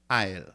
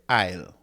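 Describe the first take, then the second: No difference in how they are said.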